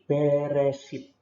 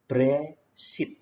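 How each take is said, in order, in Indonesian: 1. Vokal pertama diucapkan sebagai satu suku kata penuh. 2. Vokal pertama diucapkan sangat cepat, hampir dihilangkan. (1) "Jadi beresit" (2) "E-nya ini cepet banget"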